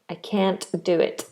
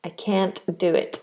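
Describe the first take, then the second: First: It is said in an American English accent. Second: The same.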